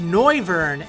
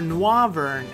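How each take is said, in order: First: The first syllable sounds like 'noise'. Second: The first syllable sounds like 'noir'. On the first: "as in noise"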